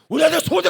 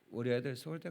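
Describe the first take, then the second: First: It is said loudly with excited, rising pitch. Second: It is said in a calm, level voice. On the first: "톤이 높아가는 거예요" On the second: "이렇게 얘기하세요"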